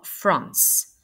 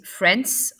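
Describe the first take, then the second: First: "France" with a back "ah" vowel; second pronunciation, long A. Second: "France" with a front A, close to "Frence"; first pronunciation, short A. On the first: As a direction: say "France" slowly with the A of "father". (« France » avec un A long et profond, « ah ») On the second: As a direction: say "France" slowly with the A of "cat". (« France » avec un A ouvert vers « è ») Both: Shown as a demonstration. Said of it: "Vous avez deux façons de le prononcer".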